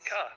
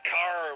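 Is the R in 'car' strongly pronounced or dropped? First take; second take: dropped; strongly pronounced. First: It is said without a pronounced R sound. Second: It is said with a strong, hard American R.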